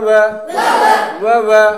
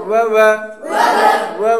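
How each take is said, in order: The two takes are said the same way.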